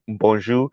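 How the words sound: It is said with a Creole accent. This is how Creole speakers say it. "but we say bon, bonjour"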